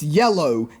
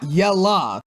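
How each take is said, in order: First: The word ends in a rounded 'oh' vowel. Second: The word ends in a relaxed 'uh' vowel. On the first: The speaker calls it right. "It's yellow" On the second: The speaker calls it wrong. "not yella. I understand you're supposed to have a southern accent"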